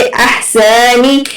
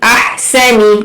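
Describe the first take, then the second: First: अहसनी with the short vowels drawn out and slackened; wrong pronunciation. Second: अहसनी with quick, clean short vowels; correct short vowels. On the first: Teacher showing students a common mistake, अहसनी mispronounced with dragged vowels. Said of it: "अहसनी नहीं पढ़ेंगे". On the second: Teacher showing the correct reading, अहसनी with unstretched short vowels. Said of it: "बिल्कुल भी नहीं खींचेंगे". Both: Shown as a demonstration.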